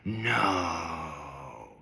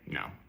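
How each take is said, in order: First: The word is said with heavy expressive attitude. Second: The word is said plainly and flatly.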